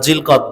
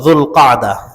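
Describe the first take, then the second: First: It is said with Bengali pronunciation, Zilqad. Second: It is said with Arabic pronunciation, Dhul-Qa'dah. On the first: "আমরা জিলকদ বলি" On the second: "এই মাসের আরবি উচ্চারণ যুলকাদা"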